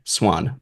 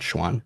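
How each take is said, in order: First: The name begins with a plain s sound. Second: The name begins with an sh sound. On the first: The speaker calls it right. "Sorry, Swan" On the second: The speaker calls it wrong. "not Schwan"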